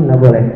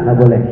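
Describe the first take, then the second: No difference in how they are said.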